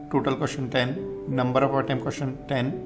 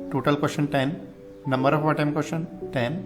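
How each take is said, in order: Both takes have the same delivery.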